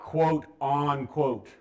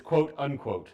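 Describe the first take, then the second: First: "unquote" said as "on quote", slowly; wrong pronunciation demo. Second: "unquote" begun with a clear UN; short UH vowel starting "unquote"; correct pronunciation demo. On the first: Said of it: "It is not quote unquote". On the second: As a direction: say "quote unquote" with UN as in "under". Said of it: "Because it's quote unquote". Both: Shown as a demonstration.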